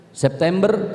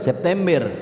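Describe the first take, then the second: First: Medan-style "September" with open E vowels, rising; mock Medan E in "September"; Medan accent. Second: Said in the usual way. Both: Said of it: "Orang Medan itu identik dengan E".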